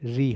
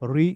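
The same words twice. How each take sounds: First: The r is light and thin. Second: The r is heavy and thick. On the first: The speaker calls it right. "নিচে যদি কাসরা হয় তাহলে চিকন হবে রি হবে" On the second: The speaker calls it wrong. "হবে না"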